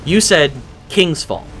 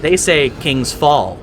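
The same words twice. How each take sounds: First: King's Fall with King's stressed. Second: King's Fall with Fall stressed. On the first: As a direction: hit King's, let Fall drop. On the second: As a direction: lean on Fall, not King's. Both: Retold or imitated. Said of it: "They put the emphasis on the other word".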